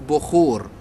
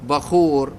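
First: The first vowel is not an 'a' sound. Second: The first vowel is an 'a' sound. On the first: This is the everyday dialect form. "احنا باللهجة العامية نقول بخور" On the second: This is the standard classical form. "اسمه الفصيح بخور ... بفتح الباء"

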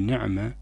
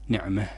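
First: The final h sound is dropped entirely. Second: The final h sound is strongly overdone. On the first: "لا نعدمها ونقول نعمة" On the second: "ولا نبالغ فيها ونقول نعمة نعمة هكذا"

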